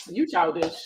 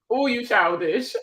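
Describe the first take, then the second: First: Said in the usual way. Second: Drawn-out, slower playful scolding; playful teasing. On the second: Real, not acted. Streamer answers a viewer teasing her accent, drawn-out and playful. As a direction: stretch it out in mock reproach.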